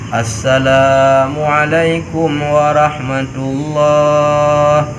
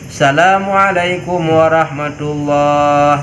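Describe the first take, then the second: First: The opening 'a' sound is clearly pronounced. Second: The opening 'a' sound is left out. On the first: The speaker calls it right. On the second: The speaker calls it wrong.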